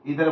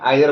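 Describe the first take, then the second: First: The word begins with an 'ee' sound. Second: The word begins with an 'eye' sound. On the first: "इधर बोलो या आइदर बोलो, matter नहीं करता" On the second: "इधर बोलो या आइदर बोलो, मैटर नहीं करता"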